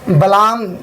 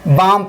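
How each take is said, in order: First: The L sound is pronounced in the word. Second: The L sound is silent in the word. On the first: The speaker calls it wrong. "बलाम नहीं पढ़ना है" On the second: The speaker calls it right. "बाम पढ़ना है"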